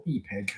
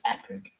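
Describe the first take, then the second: First: "Epig" with a long first vowel, EE-pig; quieter, throwaway "Epig" as EE-pig; alternative pronunciation. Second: "Epic" with a short first vowel; pronunciation guess. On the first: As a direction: offer "Epig" as the other way of saying it. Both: Shown as a demonstration. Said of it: "however you say it".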